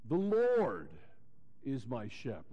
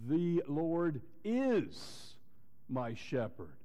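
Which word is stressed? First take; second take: Lord; is. First: The stress falls on the word "Lord". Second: The stress falls on the word "is". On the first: It points to who he personally is. "Lord, Jehovah" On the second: It is a present reality and truth. "he is. It's a reality"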